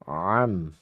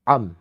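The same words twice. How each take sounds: First: The throat consonant flows softly without a hard catch. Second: The throat consonant starts with a hard abrupt catch. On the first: The speaker calls it right. "bacanya dengan keadaan yang rakhawah. ... begitu ya" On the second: The speaker calls it wrong. "bukan am, am, bukan begitu"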